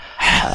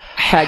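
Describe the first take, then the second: First: The syllable is said with only breath. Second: The syllable is said with full voice. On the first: The speaker calls it wrong. "bukan ha, kalau nafas semua capek" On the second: The speaker calls it right. "dikeluarkan juga suaranya"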